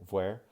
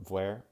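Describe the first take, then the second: No difference in how they are said.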